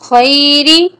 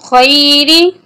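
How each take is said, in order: The two takes are said the same way.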